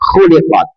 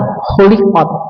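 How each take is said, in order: First: The first sound is rough and raspy. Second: The first sound is a smooth, breathy h. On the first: It means 'was created'. The speaker calls it right. "agak kotor, agak ada ludahnya" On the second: It has a different meaning. The speaker calls it wrong. "Jangan khuliqat"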